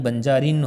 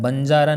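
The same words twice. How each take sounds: First: बंजारिन ending in "rin"; correct form. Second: बंजारा ending on open "aa"; wrong form. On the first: Teacher gives students the right word, firm. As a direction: land बंजारिन on a nasal n. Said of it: "होता है". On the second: Teacher shows students the faulty word, emphatic. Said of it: "नहीं". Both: Shown as a demonstration.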